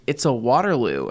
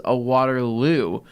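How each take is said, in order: First: Said in the usual way. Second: WATERLOO drawn out slowly; slow corrective repeat. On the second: Retold or imitated. Friend repeats the drink's name to a confused listener, slow correction.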